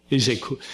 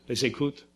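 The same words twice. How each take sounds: First: States the word firmly with a falling tune on "coot"; settled fall. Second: Asks the word back with a rising question tune, "coot?"; unsure whether "coot" is the right word, rising on "coot"; questioning rise. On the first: Lecturer confirms his word to the audience, with a falling tune. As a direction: confirms "coot" flatly, closing it down. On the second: Lecturer checks a word with the audience, with a questioning rise. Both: Real, not acted.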